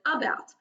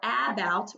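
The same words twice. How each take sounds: First: The first vowel is a lazy schwa sound. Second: The first vowel is a full, clear vowel. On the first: "we kind of make it a lazy sound, and it kind of just sounds like the short U" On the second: "instead of saying about"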